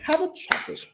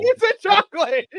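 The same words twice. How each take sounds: First: Whispered mock coo. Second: Mock grandma coo. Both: Echoing the chocolate line.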